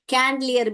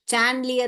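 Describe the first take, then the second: First: The word begins with a k sound. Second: The word begins with a ch sound. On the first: "कैंडलियर भी नहीं है" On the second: "चैंडलियर नहीं है"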